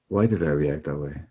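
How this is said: It is asked in a gentle, curious tone.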